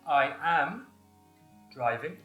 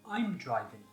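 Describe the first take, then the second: First: The verb is said in full as 'am'. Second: The verb is contracted onto the pronoun. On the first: "the long form" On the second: "the short form"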